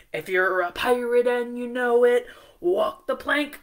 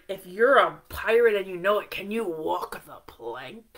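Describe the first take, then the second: First: Singing the pirate song. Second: Said in the usual way. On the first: Acted. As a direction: sing it for the class. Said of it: "It goes". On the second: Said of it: "then I want you to go".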